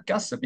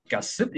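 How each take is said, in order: First: 가습 with the 습 lifted instead; other syllable high. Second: 가습 with the 가 lifted high; one syllable high. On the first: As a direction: stress the second syllable of 가습. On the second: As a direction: stress the first syllable of 가습. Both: Shown as a demonstration. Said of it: "둘 중에 하나는 높음이".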